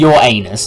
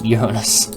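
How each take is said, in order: First: It sounds like the phrase 'your anus'. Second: It sounds like 'urine-us', not 'your anus'. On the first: The speaker calls it wrong. "I'm not saying your anus" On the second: The speaker calls it right. "it's Uranus"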